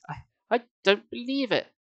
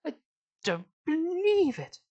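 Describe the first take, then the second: First: High, halting disbelief; stunned disbelief. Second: Very high, stretched exasperated catchphrase; Victor Meldrew. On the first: A narrator's reading. Sari stares down at Uncle Ben, in stunned disbelief. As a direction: stumble into it with raised pitch. Horrified disbelief, before the impression. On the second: Acted. Reader turns Sari into a sitcom grump, comic impression. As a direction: draw out "believe" in a high, comic wail. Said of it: "She turned to Victor Meldrew".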